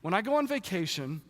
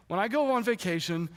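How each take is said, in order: Both takes have the same delivery.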